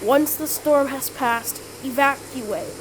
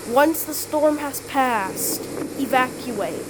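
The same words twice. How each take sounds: The two takes are said the same way.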